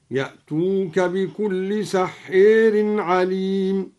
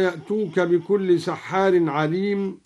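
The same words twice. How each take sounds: First: Slow chant, سحير as "sahheer"; imala. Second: Said in the usual way. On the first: Shown as a demonstration. Teacher shows imala, slowly chanting سحير as "sahheer". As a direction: chant سحير with the long a bent to a long e. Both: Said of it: "أمال سحار".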